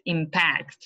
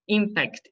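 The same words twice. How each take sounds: First: "impact" as the verb, im-PACT; last-syllable stress. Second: "Impact" as the noun, IM-pact; first-syllable stress. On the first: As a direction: lean on the end of "impact". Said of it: "The stress is on the last". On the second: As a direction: start "Impact" high on IM. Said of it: "on the first syllable". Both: Shown as a demonstration.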